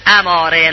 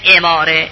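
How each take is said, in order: First: The word begins with an 'a' vowel. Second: The word begins with an 'i' vowel. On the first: It is the technical term meaning a sign or indicator. The speaker calls it right. "اماره نه اماره" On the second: It is a verbal noun of a derived verb form. The speaker calls it wrong. "اماره مصدر باب افعاله"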